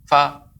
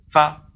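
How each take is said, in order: First: The f is made with very little air. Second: The f is made with very little air.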